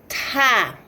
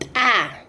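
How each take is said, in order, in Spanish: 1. Tiene un fuerte soplo de aire. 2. Tiene un corte glotal marcado.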